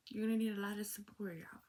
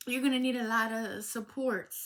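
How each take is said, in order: First: Whispered repeat. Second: Said in the usual way. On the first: Real, not acted. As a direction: whisper it again for emphasis.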